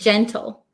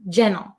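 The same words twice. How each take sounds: First: The T sound in the middle is pronounced. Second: The T sound in the middle is dropped. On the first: "Or you could say gentle" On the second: "when I say it quickly as an American English speaker, I often cut the T sound"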